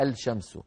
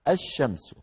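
First: The l sound is clearly pronounced before sh. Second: The l merges into a doubled sh sound. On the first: The speaker calls it wrong. "لكن ما أحد يلفظها الشمس" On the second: The speaker calls it right. "يقولون الشمس"

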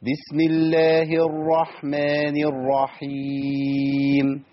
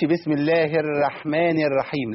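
First: The r sound is heavy and full. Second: The r sound is light and thin. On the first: The speaker calls it right. "فمحتاج ان انا افخم الراء" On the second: The speaker calls it wrong. "ما اقولش"

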